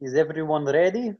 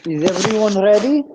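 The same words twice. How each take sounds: First: Put-on Russian accent again. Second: Higher and louder, a hammed-up Russian accent on "Is everyone ready?"; a playful first go at a Russian accent. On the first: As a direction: redo the Russian accent so it is clearly heard. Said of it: "the accent, just, I didn't hear it". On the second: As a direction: ham up a Russian host asking "Is everyone ready?". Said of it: "present it in a Russian accent".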